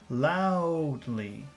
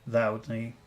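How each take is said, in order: First: The word is said with strong emphasis. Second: The word is said plainly, without emphasis. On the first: "Focus loudly" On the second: "Normal loudly"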